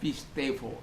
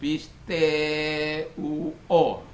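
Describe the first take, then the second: First: The middle has a clear v sound. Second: The middle is a vowel glide with no v. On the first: This is the modern Greek reading. "modern itu dibaca pistevo" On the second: This is how people commonly say it. "orang katakan pisteo"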